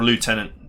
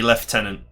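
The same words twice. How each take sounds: First: Lieutenant said "loo-TEN-ant"; American pronunciation. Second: Lieutenant said "lef-TEN-ant"; British pronunciation. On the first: Player offering the alternative, lieutenant said as "lootenant". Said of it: "depending on where you're from". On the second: Player correcting the game, lieutenant said as "leftenant". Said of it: "Should be lieutenant or lieutenant". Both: Shown as a demonstration.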